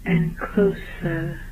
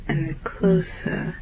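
No difference in how they are said.

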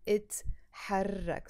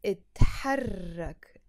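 First: Said in the usual way. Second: اتحرك whispered, slow; whispered model word; whispered demo. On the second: Shown as a demonstration. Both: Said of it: "You would say in that case".

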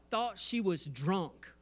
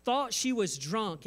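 First: Said in the usual way. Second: Thought said higher with a falling end; emphatic repeat. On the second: Shown as a demonstration. Pastor repeating the priest's accusation for emphasis, stress on Thought. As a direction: repeat it harder, leaning on Thought.

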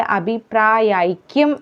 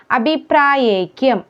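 First: അഭിപ്രായൈക്യം with a clear "yai"; correct diphthong. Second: അഭിപ്രായൈക്യം with "ye" for "yai"; wrong vowel. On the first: Teacher telling learners to say yai, clear diphthong in അഭിപ്രായൈക്യം. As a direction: say അഭിപ്രായൈക്യം as "abhipraa-yai-kyam". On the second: Teacher showing the mistake, "ye" in അഭിപ്രായൈക്യം. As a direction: say അഭിപ്രായൈക്യം as "abhipraayekyam". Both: Shown as a demonstration. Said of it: "യൈ എന്നാണ് പറയേണ്ടത്".

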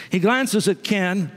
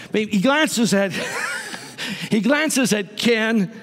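First: Said in the usual way. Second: Mock-dramatic callback to Ken; playful emphasis. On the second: Shown as a demonstration. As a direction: draw it out with a knowing grin. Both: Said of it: "Well, maybe not Ken".

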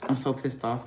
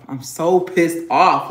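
First: Said in the usual way. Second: Angry. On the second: Real, not acted. Repeats it louder and slower.

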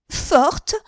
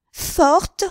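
First: High, loud, indignant "Forte?" thrown back; outraged echo. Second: Higher, louder second "Forte?", pitch climbing; rising outrage. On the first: Henriette repeating the insult to the shopgirl, outraged. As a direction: spit the word back in disbelief. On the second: Henriette hurling the word back at Denise, rising fury. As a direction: repeat it, angrier still. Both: A narrator's reading.

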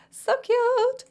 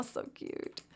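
First: High, louder squeal of "So cute". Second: Breathless whisper of delight; whispered aww. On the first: Squealing aww at baby. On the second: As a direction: whisper "so cute" like you're overwhelmed. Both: Real, not acted.

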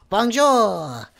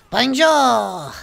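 First: Bonjour called out loud. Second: Bonjour shouted higher in a hammy French voice. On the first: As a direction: call out Bonjour loud, then fall. Greets the French Scout. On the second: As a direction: belt out Bonjour in a put-on French voice. Greets the French Scout again. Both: Acted.

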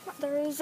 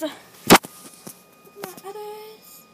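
First: Said in the usual way. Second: High, loud, very slow stretched words; drawn-out sing-song. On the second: Shown as a demonstration.

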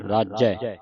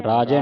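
First: ਰਾਜੈ with a held double j; doubled-sound reading. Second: ਰਾਜੈ with a single j and narrow "e"; ਰਾਜੈ without adhak; wrong reading. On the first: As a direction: lean on the j, "raaj-jai", in ਰਾਜੈ. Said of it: "ਅਧਿਕ ਲਾ ਕੇ ਉਚਾਰਨ ਕਰਨਾ". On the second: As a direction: say ਰਾਜੈ as a quick "raaje". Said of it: "ਨਹੀਂ ਪੜ੍ਹਨਾ". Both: Shown as a demonstration.

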